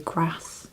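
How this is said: It is said in a northern English accent. "If you come from up north in England you say grass"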